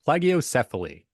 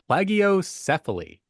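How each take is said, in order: First: The word is said firmly, with confidence. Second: The word is said hesitantly, without confidence. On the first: "Say it with conviction" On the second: "I can't say this word"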